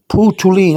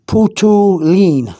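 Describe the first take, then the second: First: Said in the usual way. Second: "Putulin" drawn out slowly as poo-too-leen; slow pronunciation demo. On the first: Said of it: "you can say". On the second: Shown as a demonstration. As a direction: stretch each syllable of "Putulin" for a learner. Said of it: "to cut, you can say".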